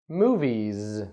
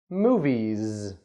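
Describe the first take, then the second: Both takes have the same delivery.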